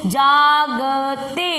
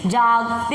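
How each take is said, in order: First: जागते stretched very slowly; slow syllable reading. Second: Said in the usual way. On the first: Shown as a demonstration. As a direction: spell out जागते slowly for the child. (धीरे धीरे जागते पढ़ना) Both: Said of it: "पढ़ो इसको".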